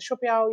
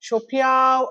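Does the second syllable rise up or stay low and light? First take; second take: low; rises. First: The second syllable stays low and lightly stressed. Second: The second syllable is pitched up, rising. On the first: "less stress" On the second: "அப்படின்னு மேலே ஏத்தலாம்"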